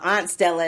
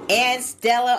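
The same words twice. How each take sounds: First: Aunt is said with an African-American pronunciation. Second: Aunt is said with a general pronunciation.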